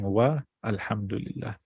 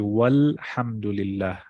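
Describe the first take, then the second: First: A glottal stop separates 'wa' from 'al'. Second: The 'wa' runs straight into 'l' with no break. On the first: The speaker calls it wrong. "instead of saying wa alhamdulillah" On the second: The speaker calls it right. "So you say walhamdulillah"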